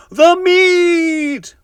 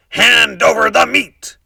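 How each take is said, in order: First: Very high, loud chorus roar; crew roaring. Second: Pirate demand. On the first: The crew roaring for meat at the table, high loud roar. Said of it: "we all roared". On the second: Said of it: "Braidbeard gulped his food and said". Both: A narrator's reading.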